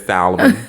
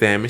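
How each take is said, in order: First: The L in the word is pronounced. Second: The L in the word is silent. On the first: The speaker calls it wrong. "She didn't say salmon" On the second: The speaker calls it right. "The L is silent"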